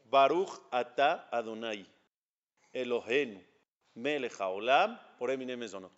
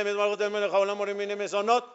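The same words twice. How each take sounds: First: "Baruch atah Adonai," then a real pause before "Elohenu"; teacher shows a careful blessing that rests after the Name "Adonai". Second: Higher and louder, "Baruch atah Melech haolam" run together with no pause; imitating careless people who skip the pause after "atah"; rushed blessing. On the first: Shown as a demonstration. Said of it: "voy a decir Mesonot". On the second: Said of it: "Hay mucha gente dice".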